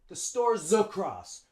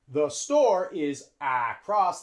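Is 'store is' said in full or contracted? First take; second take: contracted; full. First: The words 'store is' are joined together. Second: The words 'store is' are said separately. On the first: The speaker calls it right. "We use the contraction" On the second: The speaker calls it wrong.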